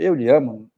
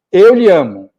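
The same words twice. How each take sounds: First: Said in the usual way. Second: "Eu lhe amo" pushed out loud and a bit higher, all at once; blurted confession. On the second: Retold or imitated. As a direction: blurt "Eu lhe amo" as a nervous father finally saying it. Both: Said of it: "Quer dizer, "Eu lhe amo", coloquialmente cabe".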